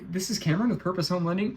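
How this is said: It sounds bubbly and scattered.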